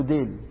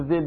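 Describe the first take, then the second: First: ديل with a hard d, "dayl"; dh turned to d. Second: Tongue between the teeth to start ذيل; correct dh sound. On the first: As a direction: start ديل on a plain d instead of dh. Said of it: "بيقولوا ذيل بيقولوا ديل". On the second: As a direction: say ذيل as "dhayl", not with d. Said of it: "اللي بيقولوا ذيل بيقولوا ديل". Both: Shown as a demonstration.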